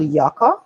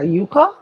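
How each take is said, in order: First: "yucca" as one of two variant pronunciations; first pronunciation. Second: "yuca" with a long "yoo" first syllable; alternative pronunciation. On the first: Mom offering names for cassava, "yucca" with a short first vowel. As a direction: say "yucca", first syllable as in "yuck". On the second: Mom unsure of the Spanish word, "yuca" said as YOO-ka. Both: Shown as a demonstration. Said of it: "I don't know how you pronounce it".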